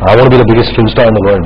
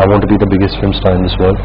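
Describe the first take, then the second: First: It is said in a cocky, arrogant tone. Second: It is said in a calm, modest tone. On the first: The ambition sounds boastful and brash. "when you read it, you could think" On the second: A sincere statement of ambition. "but I may say it this way"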